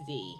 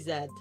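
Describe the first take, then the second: First: The letter is said as zee, American style. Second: The letter is said as zed.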